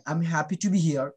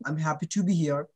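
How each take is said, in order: Both takes have the same delivery.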